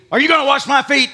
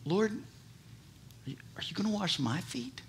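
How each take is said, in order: First: Loud, sharp accusing question; loud accusing Peter; accusative. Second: Soft, humble wondering question; soft humble Peter asking; humbly inquisitive. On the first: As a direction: demand it like an accusation. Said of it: "in an accusative way". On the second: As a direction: ask it humbly, almost hushed. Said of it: "in an inquisitive way, humbly". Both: Retold or imitated.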